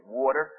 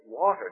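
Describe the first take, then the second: First: "water" with a New Jersey vowel; New Jersey accent. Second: "water" as standard American, without New Jersey vowel; corrected pronunciation. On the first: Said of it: "born with a New Jersey accent". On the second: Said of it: "you sound ignorant". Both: Retold or imitated.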